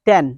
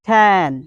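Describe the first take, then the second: First: The t is said in a Bengali-style way. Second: The t is said in an American-style way. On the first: The speaker calls it wrong. "It's not ten" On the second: The speaker calls it right. "আপনাকে বলতে হবে ten"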